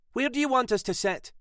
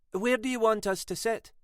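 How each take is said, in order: First: Higher, pressed repeat with push on you; impatient second asking, stressing you; Sylvia, not amused, repeats the question; repeated, irritated. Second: Higher, tight first asking; tense question. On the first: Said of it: "Sylvia wasn't amused". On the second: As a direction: ask it edgily, keeping worry in. Sylvia tense, asks first time. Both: A narrator's reading.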